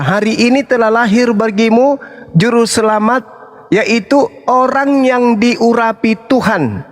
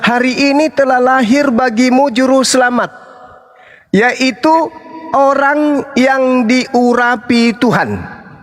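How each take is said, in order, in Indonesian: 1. Kalimat ini diucapkan dengan tempo normal. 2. Kalimat ini diucapkan dengan lambat dan hati-hati.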